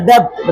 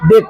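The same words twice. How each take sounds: First: "डेब्ट" with the b sounded; learner's "डेब्ट", b audible; mistaken pronunciation. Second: "डेट" with no b; silent b. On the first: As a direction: pronounce the b before t in "डेब्ट". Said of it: "डेब्ट नहीं होगा". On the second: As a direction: go straight from vowel to t in "डेट". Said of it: "silent". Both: Shown as a demonstration.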